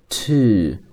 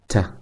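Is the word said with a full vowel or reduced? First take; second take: full; reduced. First: The word has a full long u vowel. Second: The word is cut down to a weak t. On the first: "本来的读音是to 是发u 这样的一个音" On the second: "经常呢会被弱读为t"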